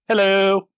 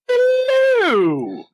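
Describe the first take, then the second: First: It is said in his normal voice. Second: It is said in a put-on voice.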